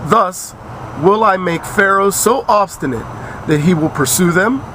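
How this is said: It is read with a questioning intonation. The speaker calls it wrong.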